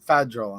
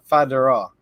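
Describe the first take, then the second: First: The word is said fast with syllables clipped. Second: The word is said carefully with every syllable. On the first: The speaker calls it wrong. "I was talking fast and I said federal" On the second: The speaker calls it right. "instead of federal"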